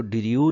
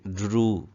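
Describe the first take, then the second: First: ड्रू broken up as "di-ri-yoo"; demonstrated mispronunciation. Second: ड्रू as one syllable, "droo"; corrected pronunciation. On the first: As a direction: say ड्रू with extra syllables and a y-glide, "diriyoo". (ड्रू का ग़लत उच्चारण "डि-रि-यू") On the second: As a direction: run d straight into r in ड्रू, long oo, no y-glide. (ड्रू, एक ही ध्वनि-खंड में "ड्रू") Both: Shown as a demonstration. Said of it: "इसको ड्रू नहीं पढ़ेंगे".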